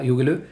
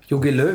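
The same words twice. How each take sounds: First: Löw said as /lø/ with no final W; W dropped. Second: Said in the usual way. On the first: Shown as a demonstration. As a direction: swallow the W at the end of Löw. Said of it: "wenn wir das W wegließen". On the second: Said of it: "Wir können das W".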